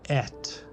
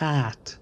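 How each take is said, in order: First: It is said in a Slavic accent. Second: It is said in a plain English accent. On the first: The speaker calls it right. "it's et" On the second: The speaker calls it wrong. "It's not at"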